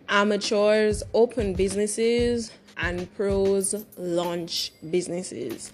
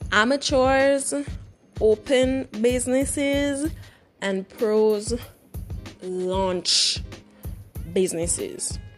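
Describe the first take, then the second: First: It is said at a normal pace. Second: It is said a little more slowly.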